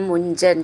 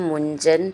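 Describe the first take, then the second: The two takes are said the same way.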